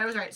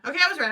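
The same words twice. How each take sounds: First: Said in the usual way. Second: Louder, higher burst of relief; triumphant self-correction; excited realization. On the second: Real, not acted. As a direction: blurt it out as you catch your mistake.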